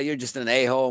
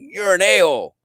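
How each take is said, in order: First: It is said in a joking, friendly tone. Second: It is said in an intense, hostile tone.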